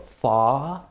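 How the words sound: It is said in a British accent, R silent.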